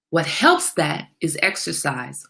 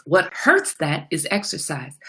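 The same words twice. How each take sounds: First: Helps slow and stressed. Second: Hurts stressed with a falling tune. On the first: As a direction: lean on helps, slowly. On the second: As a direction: punch hurts and let it fall. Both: Shown as a demonstration.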